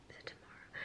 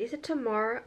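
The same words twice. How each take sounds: First: Barely voiced, muttering the question to herself; whispered to herself. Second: Said in the usual way. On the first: Real, not acted. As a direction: drop to a private whisper, unsure. Worried self-question mid-vlog.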